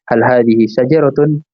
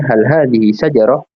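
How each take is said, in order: First: The last word ends with its full final vowel. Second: The last word stops short without the ending. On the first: The speaker calls it wrong. "lebih enaknya diwakafkan daripada" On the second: The speaker calls it right. "lebih enak dengar"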